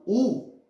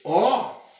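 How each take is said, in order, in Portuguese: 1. A vogal é átona e fechada, como u. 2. A vogal é tônica e aberta, como ó. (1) "isso é monossílabo átono. A pronúncia é como se fosse um u mesmo" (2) "já é um monossílabo tônico. ele vai ter uma pronúncia mais aberta"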